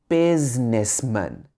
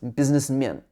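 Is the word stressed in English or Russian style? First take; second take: English; Russian. First: The stress is placed the English way. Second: The stress is placed the Russian way. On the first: The speaker calls it right. "But in English, it should be businessman" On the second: The speaker calls it wrong. "I think in Russian this is something businessman"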